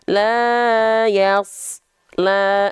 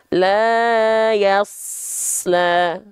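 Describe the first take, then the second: First: A short gap separates the hissing sound from the 'l'. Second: The hissing sound flows straight into the 'l'. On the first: The speaker calls it wrong. "Nah, nggak boleh" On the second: The speaker calls it right. "Tapi terus ngalir, ya, desisannya"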